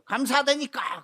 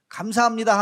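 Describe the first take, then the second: First: It is shouted angrily. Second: It is said gently and warmly.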